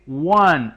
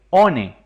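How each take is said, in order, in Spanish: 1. Se pronuncia con sonidos ingleses. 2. Se lee letra por letra, al estilo español. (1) "Se dice one" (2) "no como aparece escrito ahí, one. Eso estaría incorrecto"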